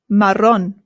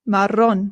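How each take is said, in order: No difference in how they are said.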